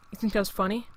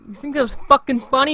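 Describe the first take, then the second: First: Softer, quiet warning before the blow-up; cold question. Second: Retold yell, louder, higher. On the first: Retold or imitated. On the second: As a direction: blow up on the repeat, a retold yell. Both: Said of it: "I had to yell at that kid".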